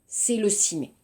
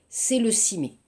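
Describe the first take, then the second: Both takes have the same delivery.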